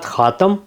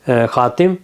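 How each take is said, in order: First: The second vowel is an 'a' sound. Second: The second vowel is an 'i' sound. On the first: "फ़तह के साथ" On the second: "कसरा के साथ तुकसर"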